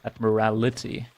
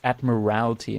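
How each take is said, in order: First: The word ends in '-rality' with an extra syllable. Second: The word ends in '-ralty' with no extra syllable. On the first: The speaker calls it wrong. "not admirality" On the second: The speaker calls it right. "Let's use this downtime to learn its admiralty"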